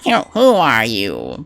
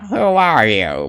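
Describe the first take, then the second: First: Slow stuttering nerdy question; stammering nerd. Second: Slow, drawn-out nerdy question. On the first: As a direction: trip over the first word, nervously. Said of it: "I was like". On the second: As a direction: ask it like a timid nerd. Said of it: "go with the nerdy voice". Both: Pretend.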